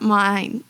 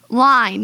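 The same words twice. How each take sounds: First: Line said as mine, with an m; line slipped out as mine; misspoken line. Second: Line said clearly with an l; Line with a clear l, not mine; corrected line. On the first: Real, not acted. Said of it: "Line, not mine, line". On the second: Shown as a demonstration. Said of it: "not mine".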